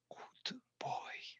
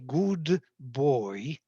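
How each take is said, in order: First: It is whispered without using the voice. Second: It is spoken aloud with a normal voice.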